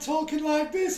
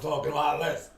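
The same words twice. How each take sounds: First: The voice is high-pitched. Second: The voice is deep. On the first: This is how he sounded before his voice broke. "I went to bed one night talking like this" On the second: This is how he sounded after his voice broke. "I got up the next day I was talking like this"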